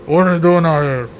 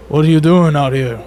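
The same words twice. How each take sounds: First: Muffled worker. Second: Lightly voiced worker calling over. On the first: Shown as a demonstration. Worker heard through a barrier by travellers, muffled. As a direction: question muffled as if through a covering. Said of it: "Yeah, like, through the ground". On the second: A worker hailing travellers in the snow, calling out. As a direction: call a question out to strangers. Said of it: "and they're like".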